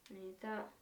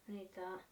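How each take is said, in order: Both takes have the same delivery.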